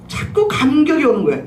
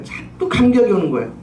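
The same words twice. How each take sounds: First: 자꾸 punched higher, falling through the rest of the line; stress on 자꾸. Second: Said in the usual way. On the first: Shown as a demonstration. Preacher telling the congregation of her emotion, 자꾸 stressed high. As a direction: hit 자꾸 up high, then let it fall.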